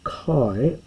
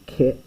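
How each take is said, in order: First: The vowel sounds like 'eye'. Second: The vowel sounds like 'eh'. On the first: "but I'm going to say kai" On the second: "this would actually be ke in proper pronunciation"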